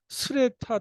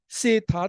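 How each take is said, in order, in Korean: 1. 이름은 'sre' 자음군으로 시작해요. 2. 이름은 평범한 'se' 소리로 시작해요. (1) "이건 다른 사람이에요" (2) "이름이 그 세타 타위신인데"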